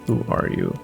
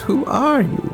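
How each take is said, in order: First: It is said in a plain voice. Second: It is said in an obnoxious mocking voice.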